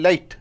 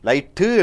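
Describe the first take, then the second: First: The final t is held and not released. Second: The final t is released with a vowel after it. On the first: The speaker calls it right. "டீ நாவிலேயே இருக்கும், அது உச்சரிக்கப்படக்கூடாது" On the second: The speaker calls it wrong. "லைட்டு என்று சொல்வதில்லை"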